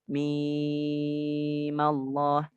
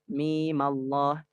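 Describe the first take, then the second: First: The vowel in mim is long, six beats. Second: The vowel in mim is short, two beats. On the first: The original silent mim is still taken into account. "mereka juga membaca enam harokat" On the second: The original cause of lengthening is treated as gone. "panjangnya hanya dua harokat"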